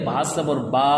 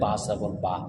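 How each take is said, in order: First: The final vowel is drawn out long. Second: The final vowel is said short and quick. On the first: The speaker calls it wrong. "কেউ যদি ভুলভাবে পড়ে" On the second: The speaker calls it right. "শব্দকে তাড়াতাড়ি উচ্চারণ করা"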